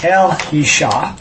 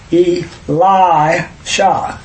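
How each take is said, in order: First: The name is split as El, Yisha. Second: The name is split as E, Li, Sha. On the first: The speaker calls it right. "So it should be after E-L" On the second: The speaker calls it wrong. "We broke it in the wrong place"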